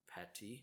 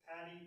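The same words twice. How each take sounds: First: The middle consonant is a T sound. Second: The middle consonant is a D sound. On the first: "It's a D versus a T" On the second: "It's a D versus a T"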